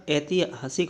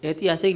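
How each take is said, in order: First: ऐतिहासिक split as ai-ti-haa-sik; correct form. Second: ऐतिहासिक run together as et-i-yaa-sik; quick middle in ऐतिहासिक; wrong form. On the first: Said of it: "होता है". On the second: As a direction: skim over the h in ऐतिहासिक. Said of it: "नहीं होता". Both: Shown as a demonstration.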